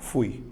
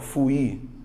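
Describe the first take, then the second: First: The word is said as one single syllable. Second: The word is split into two separate syllables. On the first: The speaker calls it right. "você faz uma, uma vez só" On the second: The speaker calls it wrong. "Você não fala fui, fui"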